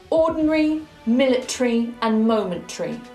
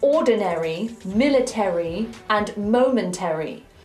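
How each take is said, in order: First: The endings are reduced to a short '-ree'. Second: The endings keep a full '-airy' vowel. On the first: The speaker calls it right. "The A R Y becomes a simple re" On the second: The speaker calls it wrong. "we do not say"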